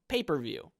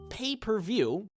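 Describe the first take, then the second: First: It is said as two words: paper, view. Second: It is said as three separate words: pay, per, view. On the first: There's paper involved instead of a TV. The speaker calls it wrong. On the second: Something you pay for each time you view it. The speaker calls it right.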